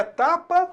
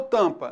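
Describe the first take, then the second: First: "tapa" with an open, non-nasal first A; oral vowel. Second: "tampa" with the first vowel through the nose; nasal vowel. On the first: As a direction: say "tapa" with clean A, no M sound. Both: Shown as a demonstration. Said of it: "é tapa ou tampa?".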